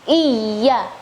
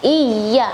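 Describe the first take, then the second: First: The y sound is doubled and held. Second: The same.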